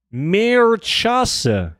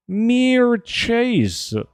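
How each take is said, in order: First: Mirchase said high, as mer-CHAH-suh; trying a pronunciation. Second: Mirchase said high, as meer-CHAYZ; another pronunciation. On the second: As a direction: Mirchase rhymed with chase, no final vowel. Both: Shown as a demonstration. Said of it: "That pronunciation?".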